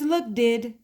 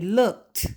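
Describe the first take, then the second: First: The ending is an extra 'id' syllable. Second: The ending is a short T sound. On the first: The speaker calls it wrong. "there's no such word as look did" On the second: The speaker calls it right. "it sounds like a T sound"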